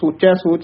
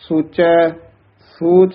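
First: The two words run together without a pause. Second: There is a short pause after ਸੋਚੈ. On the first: The speaker calls it wrong. "ਸੋਚੈ ਸੋਚ ਨਹੀਂ ਕਹਿਣਾ" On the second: The speaker calls it right. "ਸੋਚੈ ਪਦ ਤੇ ਵੀ ਥੋੜਾ ਜਿਹਾ ਠਹਿਰਾ ਯਮਕ ਜੀ ਲਾ ਕੇ ਬੋਲਣਾ ਹੈ"

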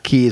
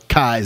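First: The vowel sounds like 'ee'. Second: The vowel sounds like 'eye'. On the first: The speaker calls it wrong. "not Keys" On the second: The speaker calls it right. "Kies like eyes"

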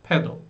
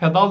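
First: The word is said with English pronunciation. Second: The word is said with Turkish pronunciation. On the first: The speaker calls it right. "Ama okunuşu farklı, dikkat edin" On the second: The speaker calls it wrong. "Gidip pedal derseniz eğer İngilizce'de konuşurken anlamaz kimse sizi"

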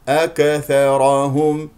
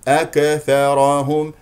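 Both takes have the same delivery.

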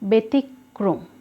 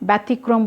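First: The first syllable has an 'e' sound. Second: The first syllable has a 'ya' sound. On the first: The speaker calls it right. "সঠিক উচ্চারণ" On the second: The speaker calls it wrong. "আমরা ব্যতিক্রম বলছি না"

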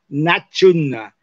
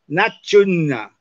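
First: The d and s merge into a ch sound. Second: The d and s merge into a ch sound.

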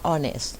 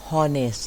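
First: The word starts with a vowel sound. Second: The word starts with an h sound. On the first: The speaker calls it right. "อ่านว่า honest ตัว h เราจะไม่ออกเสียง" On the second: The speaker calls it wrong. "ไม่อ่านว่า"

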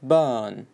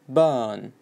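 First: A British accent with the r almost dropped. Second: A British accent with the r almost dropped.

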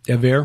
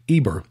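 First: The middle consonant is a V sound. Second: The middle consonant is a B sound. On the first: The speaker calls it right. "now it looks like the actual pronunciation is Ever" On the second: The speaker calls it wrong. "it's essentially the same word, same name"

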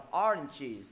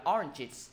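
First: The ending glides down smoothly and softly. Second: The ending drops heavily and is cut off abruptly. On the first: The speaker calls it right. "đi xuống chứ ... để dấu huyền" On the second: The speaker calls it wrong. "đừng dấu nặng"

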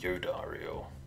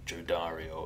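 First: The name begins with a Y sound. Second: The name begins with a J sound. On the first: The speaker calls it right. "it would be Yodario" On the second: The speaker calls it wrong. "I don't think it would be Jodario"

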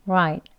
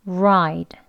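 First: The R is said lightly with little tension. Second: The R is said with strong tongue tension.

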